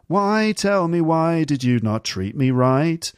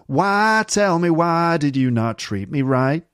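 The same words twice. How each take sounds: First: It is said with a British accent. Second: It is said with an American accent.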